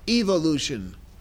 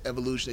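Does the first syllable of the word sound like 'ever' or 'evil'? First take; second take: evil; ever. First: The first syllable sounds like the start of 'evil'. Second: The first syllable sounds like the start of 'ever'. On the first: "they say evolution, which is probably more proper because it sounds like evolution" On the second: "they don't say evolution"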